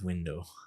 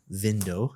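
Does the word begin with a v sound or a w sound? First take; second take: w sound; v sound. First: The word begins with a w sound. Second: The word begins with a v sound. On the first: The speaker calls it right. "instead of" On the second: The speaker calls it wrong. "sometimes you mix up your w and your v"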